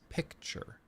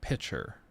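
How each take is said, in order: First: A K sound is heard before the CH sound. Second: No K sound is heard before the CH sound. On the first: The speaker calls it right. "It's picture. There's a C" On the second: The speaker calls it wrong. "It's not pitcher"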